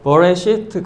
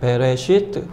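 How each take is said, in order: First: The first vowel is a short 'uh' sound. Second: The first vowel is a clear 'eh' sound. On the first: This is the strict traditional pronunciation. "솔직히는 버레시트 그렇게 발음해야 되는데" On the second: This is the everyday spoken pronunciation. "이스라엘 사람들은 그냥 베라고 발음합니다"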